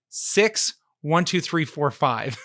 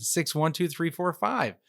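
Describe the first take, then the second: First: Slow, deliberate, each digit spaced out; slow reveal. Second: Said in the usual way. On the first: Shown as a demonstration. Revealing the silly scam code to the host, slow deliberate reveal. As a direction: spell out the punchline number slowly. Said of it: "guess what the verification code was". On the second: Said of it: "He goes".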